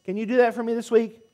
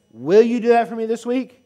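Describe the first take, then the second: First: Said in the usual way. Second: Will you do that for me this week, pushed louder with a rising ask; congregation-rallying call; louder rallying repeat. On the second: Real, not acted. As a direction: call it out again, stronger, to rouse the room.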